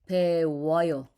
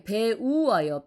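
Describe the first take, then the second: First: The vowels merge into two syllables. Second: The vowels are kept apart in three syllables. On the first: "together it sounds like 와, 우 plus 어" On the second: "배우 plus 어요"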